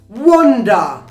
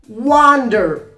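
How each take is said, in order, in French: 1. Il est prononcé avec un accent britannique. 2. Il est prononcé avec un accent américain. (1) "wonder for the British pronunciation" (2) "And the American pronunciation"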